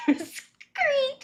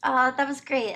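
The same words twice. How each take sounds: First: Laughs it out, high and slow; cracking up while saying it; laughing. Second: Said in the usual way. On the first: Real, not acted. Viewer laughing at the clip while saying it was great.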